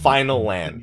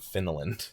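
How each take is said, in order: First: The name is said as two words. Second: The name is said as one word. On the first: The speaker calls it right. "It's Final Land with the one L" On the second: The speaker calls it wrong. "I was told that Finland was incorrect"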